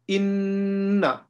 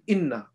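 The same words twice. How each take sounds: First: The doubled n is held long through the nose. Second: The doubled n is short, without nasal hold. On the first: The speaker calls it right. "So you say inna" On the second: The speaker calls it wrong. "You don't say inna"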